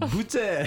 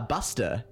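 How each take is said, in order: First: No s sound is pronounced before the t. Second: An s sound is pronounced before the t. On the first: The speaker calls it right. "oh, no, no, no. Boute" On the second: The speaker calls it wrong. "when the non-French speaking people, they were like, ah, buster"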